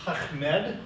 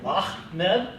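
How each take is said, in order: First: "Ahmed" with a rasping h from the back of the throat, slow; Arabic guttural demo. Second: "Ahmed" with a throaty h, rising; Arabic guttural demo. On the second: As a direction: say "Ahmed" again with the h scraped in the throat. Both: Shown as a demonstration. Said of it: "guttural sound in the back of your throat".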